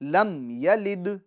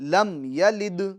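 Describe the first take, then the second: The two takes are said the same way.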